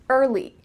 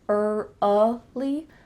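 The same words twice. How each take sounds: First: The word is said smoothly without an extra sound. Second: An extra uh sound is added mid-word. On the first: The speaker calls it right. "put it together" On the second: The speaker calls it wrong. "that uh in the middle isn't natural"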